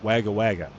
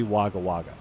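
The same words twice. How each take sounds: First: Wagga Wagga with the A of wag; short flat A. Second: Wagga Wagga said WOGGA WOGGA; open AH. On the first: Asking viewers about a town name, Wagga with A as in wag. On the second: Guessing a town name, Wagga with an open AH. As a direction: say Wagga Wagga with AH in each first syllable. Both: Shown as a demonstration.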